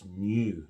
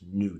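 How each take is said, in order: First: A y sound comes before the vowel. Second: No y sound comes before the vowel. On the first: The speaker calls it right. "In Standard British, it's new" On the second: The speaker calls it wrong. "not new"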